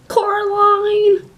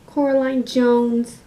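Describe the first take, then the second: First: Loud, high, drawn-out call. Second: Slow, raised, measured delivery; in-character naming. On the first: Other Mother costume, calling for Coraline, high drawn-out call. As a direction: sing the name out loudly, stretched. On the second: Other Mother costume, addressing Coraline, slow and deliberate. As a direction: say the full name slowly and deliberately. Second, lower take of the name. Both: Acted.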